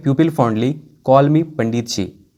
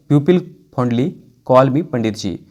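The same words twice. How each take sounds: First: Said in the usual way. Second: "People fondly", pause, then "call me Pandit जी"; split into two chunks. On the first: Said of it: "तो बोलेंगे". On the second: Shown as a demonstration. Teacher repeating the sentence for students, chunked with a pause after "fondly". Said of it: "है ना".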